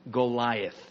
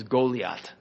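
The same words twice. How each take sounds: First: Said in the usual way. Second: "Goliath" said go-lee-AHT, ending in a hard t; Hebrew-style Goliath. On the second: Shown as a demonstration. Teacher naming the Philistine champion, Goliath as go-lee-AHT. Gives the giant's name in two forms.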